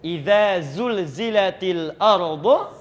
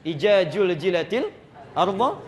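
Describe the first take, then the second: First: The first word has a soft 'dz' sound. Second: The first word has a hard 'j' sound. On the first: "itu the dengan za" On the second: "kalau lisannya terlalu kerasnya luar biasa, itu semua bisa ja"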